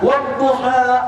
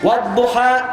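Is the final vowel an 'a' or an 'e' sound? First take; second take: a; e. First: The word ends with an open a vowel. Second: The word ends with an e-like vowel. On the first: "Saya baca Quran pakai A" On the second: "walaupun dibaca E, ujungnya E juga"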